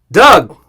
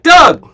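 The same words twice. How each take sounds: First: Louder, mildly excited greeting. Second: High, loud excited greeting. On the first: Golf pro finally greets Doug, imitated excitement. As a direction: imitate an eager hello. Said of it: "like, excited". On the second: Golf pro greeting Doug, exaggerated excitement. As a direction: burst out with the name like an eager host. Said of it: "like, excited, like". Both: Retold or imitated.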